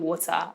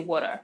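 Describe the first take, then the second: First: It is said with a Nigerian accent. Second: It is said with an American accent. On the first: "I know that I sound like a Nigerian" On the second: "you might start to get American influences in some words"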